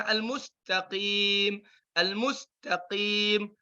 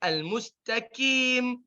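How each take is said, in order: First: Qaf from the back of the throat; proper qaf; correct qaf. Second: Al-mustaqim with a light k instead of qaf; the mistake with a front k; wrong kaf. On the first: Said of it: "baca yang benar gimana". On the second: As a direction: kaf error. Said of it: "jangan sampai jadi". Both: Shown as a demonstration.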